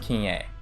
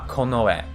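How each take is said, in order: First: The word is said as kin-ye. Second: The word is said as ko-no-e. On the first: The speaker calls it wrong. "It is not pronounced kinye" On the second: The speaker calls it right. "But this is pronounced uh, konoe"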